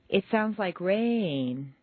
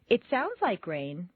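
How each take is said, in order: First: The stress falls on rain. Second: The stress falls on sounds.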